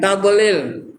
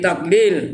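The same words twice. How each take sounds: First: The consonant is released with an echoing bounce. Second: The consonant is held without an echoing bounce. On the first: The speaker calls it wrong. "Jangan tadlil" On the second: The speaker calls it right. "Fi tadlil ya"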